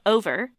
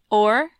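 First: The word is said with two full syllables. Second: The word is squeezed into one syllable.

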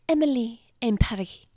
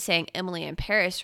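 First: Paris ends in an ee sound, rhyming. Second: Paris ends in an s sound, not rhyming. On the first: The speaker calls it right. "it's actually Emily in Paris ... they wanted it to rhyme" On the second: The speaker calls it wrong. "we've all been saying Emily in Paris wrong"

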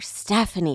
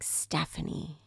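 First: The name is said loudest of all. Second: The name is said somewhat louder.

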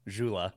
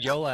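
First: The name begins with a J sound. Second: The name begins with a Y sound. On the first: The speaker calls it wrong. "they always said Jula" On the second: The speaker calls it right. "I heard Yola and I was like, well, this can't be right. And then obviously it was"

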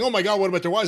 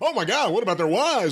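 First: It is said in a plain, natural voice. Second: It is said in a put-on announcer voice. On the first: The shock sounds genuine. The speaker calls it right. "It's one thing saying" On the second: The shock sounds performed and fake. The speaker calls it wrong. "Another thing, ... the fake-sounding announcer voice"

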